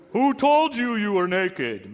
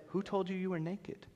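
First: Slow, booming, higher and louder; slow booming God voice. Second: Soft, higher, hushed question; quietly asking, much softer. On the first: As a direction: boom it out like an angry father. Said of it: "used the booming voice". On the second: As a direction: ask it quietly but heavy. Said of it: "Or it might have been quiet". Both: Shown as a demonstration.

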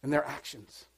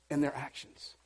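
No difference in how they are said.

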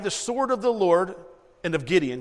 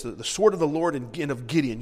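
First: Higher, louder battle cry, shouted out; yelled battle cry. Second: Shouted battle cry. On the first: Retold or imitated. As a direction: call it out like soldiers charging. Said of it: "And they yelled". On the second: Shown as a demonstration. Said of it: "Yell it real loud".

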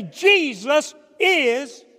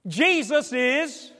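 First: Jesus is shouted slowly, high and loud; defiant shout. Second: Defiant declaration. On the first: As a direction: shout out your faith defiantly. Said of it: "So they would say". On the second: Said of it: "That was convicting". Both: Retold or imitated.

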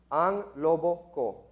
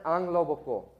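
First: Slow, careful repeat. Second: Said in the usual way. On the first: Shown as a demonstration. Teaching listeners the Tagalog song title, slow and careful.

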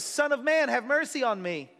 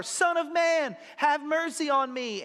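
First: High pleading cry for mercy. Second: Higher, louder desperate plea; crying out louder. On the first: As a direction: call out to Jesus, begging. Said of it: "he begins to cry out". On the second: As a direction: shout it over the crowd. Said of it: "so he cries out louder". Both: Retold or imitated.

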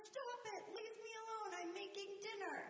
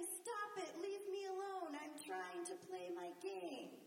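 First: High, sharp mock snap at the kids; a busy parent brushing the kids off; snapping parent. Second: High mock snap thrown back by a kid; the child copying the parent's brush-off; snapping child. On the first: Mother mimicking herself snapping at the kids over dinner. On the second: Mother imitating a child snapping back when asked to clean up.

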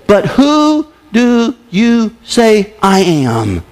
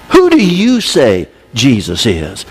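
First: Slow, every word stretched; slow emphatic question. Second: Slow and low, pressing; slow pointed question. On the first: Preacher reading Jesus' question to the church, slow. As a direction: ask it slowly and pointedly. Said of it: "circle the next seven words". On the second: Preacher challenging listeners directly, slow and pointed. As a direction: put the question to them slowly. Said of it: "the important question to you". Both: Shown as a demonstration.

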